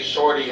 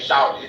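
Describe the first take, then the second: First: It is said with a northern US accent. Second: It is said with a southern US accent. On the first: "they say shorty" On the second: "we say shorty"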